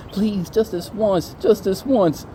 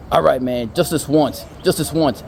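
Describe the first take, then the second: First: High, slow pleading imitation; hammed-up desperate begging; mock begging. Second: Lightly acted giving-in, fairly loud; a touch of grudging consent; reluctant agreement. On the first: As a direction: draw out the plea in a needy voice. Imitating the guy begging George. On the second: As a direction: give in to the plea, plainly. George gives in to the begging.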